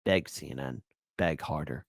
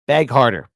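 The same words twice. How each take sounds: First: Low, soft mocking command; quiet taunt. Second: Punchy mocking command; louder taunt. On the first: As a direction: murmur it with a smirk. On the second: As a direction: demand it louder, gloating. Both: Taunting clip of begging pundits.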